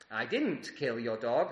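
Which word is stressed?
didn't. The word 'didn't' carries the emphasis.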